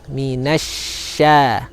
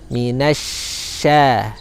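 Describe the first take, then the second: The two takes are said the same way.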